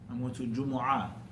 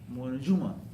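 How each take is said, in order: First: The final word is longer, with three syllables. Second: The final word is short, with two syllables. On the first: "some people, they say I'm going to Jumu'ah" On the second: "they say Juma"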